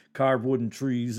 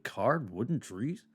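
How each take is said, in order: First: Said in the usual way. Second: CARVED WOODEN TREES as a question, swooping up at the end; questioning double take. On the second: Real, not acted. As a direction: query "carved wooden trees" with a sharp rise on "trees". Double-takes at own words.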